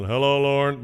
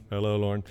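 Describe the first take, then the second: First: A touch louder, imitating dad's cheery hello; lightly voiced dad calling out his own name; father's morning greeting. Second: Said in the usual way. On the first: Father's daily signal the day began, mild imitated hello. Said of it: "the signal that the day had begun". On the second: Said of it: "his greeting to himself and the world".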